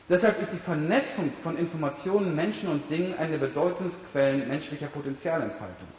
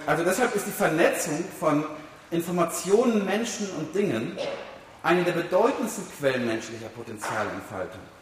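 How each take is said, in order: First: It is said fast and at normal volume. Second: It is said slowly and more loudly.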